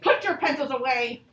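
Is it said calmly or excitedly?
excitedly. It is said with a lot of excitement.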